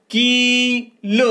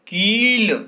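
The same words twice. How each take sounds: First: कील stretched very slowly, high and loud, the long ई held out; drawn-out blend. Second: कील said again at normal pace, still loud and high; now say कील crisply at normal speed; normal-speed repeat. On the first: Teacher to pupils, slowly stretching out कील. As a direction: draw out कील so pupils hear each sound. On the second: Teacher repeating कील to pupils at normal speed. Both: Shown as a demonstration. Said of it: "तो क्या शब्द बनेगा?".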